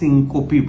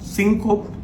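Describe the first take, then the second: First: The word ends with an added final 'ee' vowel. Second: The word ends on a consonant, no final vowel.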